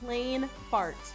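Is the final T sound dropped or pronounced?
pronounced. It has an English sound with the final T.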